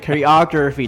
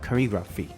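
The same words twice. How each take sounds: First: The r is strongly curled, American style. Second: The r is barely curled, British style. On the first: "めっちゃね choreography って巻いちゃうんですけど" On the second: "イギリス英語の場合 R あんま巻かないので"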